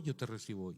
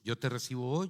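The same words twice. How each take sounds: First: "hoy" echoed low and soft, falling; dutiful, softer echo settling down on "hoy"; repeating a prayer. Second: "hoy" left rising, as a prompt to repeat; lead-me line with a lift on "hoy"; leading a prayer. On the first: Man repeats after the boy, "hoy" soft and falling. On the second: Boy leads a man in prayer, "hoy" rising as a prompt. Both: Retold or imitated. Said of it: "Repita después de mí".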